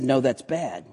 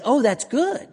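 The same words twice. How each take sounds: First: Softer, falling comic correction; downbeat contradiction. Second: High-pitched approval, rising on "good"; upbeat reaction. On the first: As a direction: counter glumly, letting "bad" drop. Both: Acted. Comic song's good-bad back-and-forth.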